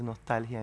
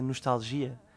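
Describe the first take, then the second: First: It carries the Spanish word stress. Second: It carries the Portuguese word stress. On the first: "me deja la vida mucho más complicada decir nostalgia" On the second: "En portugués se dice nostalgia"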